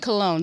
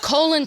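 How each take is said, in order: First: The name sounds like the word cologne. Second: The name sounds like the word colon. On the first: "he made us say cologne" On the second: "How would you pronounce that?"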